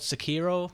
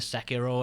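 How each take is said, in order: First: The name is said in an anglicized way. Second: The name is said in a Japanese-style way. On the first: The speaker calls it wrong. "for some reason I always call it Sekiro" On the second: The speaker calls it right. "I know that's the right pronunciation"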